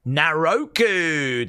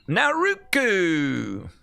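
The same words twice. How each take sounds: First: Naroku said slowly with a long O in the middle; announced pronunciation. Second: Naruku drawn out slowly, open a, falling; trying out the name. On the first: Host settles on the right way to say the name, slow pronunciation. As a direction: stretch out Naroku, na-ROH-ku. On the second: Host sounds out the name for viewers, slow falling pronunciation. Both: Shown as a demonstration. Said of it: "That's how you say it".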